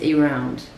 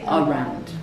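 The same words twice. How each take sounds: First: The first vowel is a full 'ay' sound. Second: The first vowel is a short 'uh' sound. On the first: "The proper way to say this is around" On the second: "But if I don't say around, I say around"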